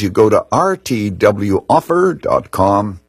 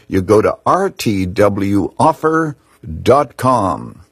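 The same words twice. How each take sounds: First: It is said quickly. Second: It is said slowly.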